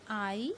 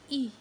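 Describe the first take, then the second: First: Gliding long "eye" for I; long vowel I. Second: Short "ih" sound for E; short vowel I. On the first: Teacher shows students the vowel's name, long I. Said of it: "name of the letters". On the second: Teacher shows students the letter's sound, short I. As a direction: say E as a brief "ih". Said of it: "sound of the letter". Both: Shown as a demonstration.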